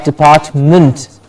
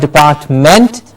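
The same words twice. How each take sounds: First: The ending is reduced to an int sound. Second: The ending has a full ent vowel. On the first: The speaker calls it right. "but department" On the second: The speaker calls it wrong. "Not department"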